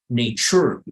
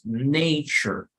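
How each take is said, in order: First: The stress falls on the last syllable. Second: The last syllable is weak and unstressed. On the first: The speaker calls it wrong. "no voy a jamás acentuar o hacer más énfasis en la última sílaba. You're never going to say nature" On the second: The speaker calls it right. "sino que es la más débil"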